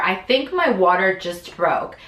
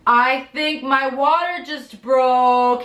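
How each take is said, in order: First: Said in the usual way. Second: Slow, higher, breathless with news; anxious news. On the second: Retold or imitated. To her husband just home, slow and stunned. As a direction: break it to him, slow and stunned. Telling husband water broke.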